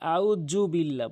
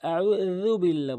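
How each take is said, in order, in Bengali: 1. dh ধ্বনিটি একটি z-এর মতো গুঞ্জন। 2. dh ধ্বনিটি একটি th-এর মতো ধ্বনি। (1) "অনেকেই জাল বলে, আউযু বিল্লাহ বলে" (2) "আউযু বিল্লাহ বলতে হবে"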